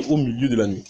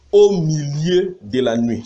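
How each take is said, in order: First: Said in the usual way. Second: Slow, drawn-out proclamation; emphatic verse reading. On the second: Acted. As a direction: read it out slowly, leaning on each phrase. Reads verse, then has it underlined. (lecture appuyée et lente du verset)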